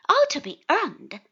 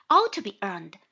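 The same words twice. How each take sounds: First: Higher, louder cheerful exclamation; upbeat, raised cheery remark. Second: Lower-pitched, emphatic echo of agreement; loud but lower confirming reply; agreeing echo. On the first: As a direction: call it out cheerfully. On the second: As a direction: repeat it back in firm agreement. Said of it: "Exactly so". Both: A narrator's reading.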